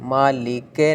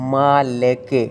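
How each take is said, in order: First: The final vowel sounds like 'e'. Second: The final vowel sounds like 'e'.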